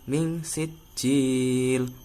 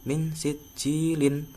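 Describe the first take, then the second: First: The word stops on the final l sound. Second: The word ends with an added -in syllable. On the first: This is the form used when pausing at the verse end. The speaker calls it right. "Jadi bacanya min sijil" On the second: This is the form used when reading on without pausing. The speaker calls it wrong. "bukan min sijilin"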